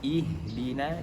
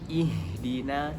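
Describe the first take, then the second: First: The first vowel is a clear 'i' sound. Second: The same.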